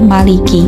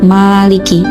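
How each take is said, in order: First: The vowel after the m is short. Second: The vowel after the m is long. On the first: "membuang alif pada huruf mim sehingga menjadi maliki, huruf mimnya menjadi pendek" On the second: "huruf mimnya tetap dibaca panjang menjadi maliki"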